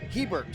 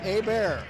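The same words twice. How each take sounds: First: The name is pronounced in a non-French style. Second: The name is pronounced in a French style. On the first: The speaker calls it right. "I'm told it's Hebert, so I will correct that" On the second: The speaker calls it wrong. "I'm thinking French, Canadian, and it would be pronounced Hebert"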